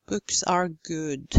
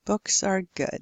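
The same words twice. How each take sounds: First: Slow, "Books" and "good" with tight rounded oo; over-rounded lips. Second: "Books" and "good" with short lax vowel; relaxed lips. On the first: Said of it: "You don't have to say". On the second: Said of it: "simply relax your". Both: Shown as a demonstration.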